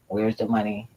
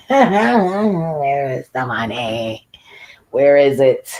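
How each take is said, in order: First: Said in the usual way. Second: Louder, drawn-out demand with a laugh. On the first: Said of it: "where the money at". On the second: Shown as a demonstration. Asking the city where the money went, louder and drawn out. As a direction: stretch it out, half laughing, louder.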